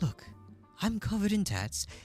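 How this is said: It is read in a put-on character voice.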